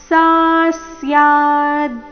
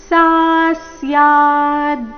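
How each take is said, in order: The two takes are said the same way.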